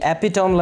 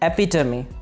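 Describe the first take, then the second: First: The word ends with a tome sound. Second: The word ends with a tuh-mee sound. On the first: The speaker calls it wrong. "ये एपिटोम लफ्ज़ नहीं है" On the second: The speaker calls it right. "बल्कि एपिटमी"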